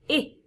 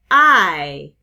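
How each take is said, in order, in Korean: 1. 짧은 모음이에요. hid의 i처럼요. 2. 긴 모음이에요. 알파벳 이름 I처럼요. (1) "짧은 이" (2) "긴 모음, 장모음은 알파벳 이름 소리"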